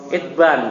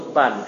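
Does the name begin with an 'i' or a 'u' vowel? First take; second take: i; u. First: The name begins with an 'i' vowel. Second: The name begins with a 'u' vowel. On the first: The speaker calls it right. "Itban, bukan Utban" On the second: The speaker calls it wrong. "bukan Utban"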